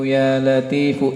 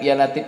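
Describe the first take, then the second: First: The word ends with a clear final u vowel. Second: The word is cut off after the final f. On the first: The speaker calls it right. "Dibaca domahnya" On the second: The speaker calls it wrong. "jangan diputus ya"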